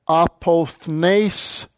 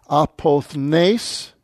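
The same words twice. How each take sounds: The two takes are said the same way.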